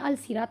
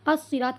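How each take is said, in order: First: The l is clearly pronounced before the s. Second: The l is silent; the s is doubled. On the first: The speaker calls it wrong. "अलसिरात हमने नहीं कहा है" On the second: The speaker calls it right. "अस्सिरात कह रहे हैं"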